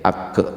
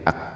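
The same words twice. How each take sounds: First: The final k is released with a bouncing echo. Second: The final k is stopped cleanly without bounce. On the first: The speaker calls it wrong. "kaf itu bukan kol-kolah, jadi tidak perlu memantul, jangan sampai ak" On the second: The speaker calls it right. "tapi ak saja"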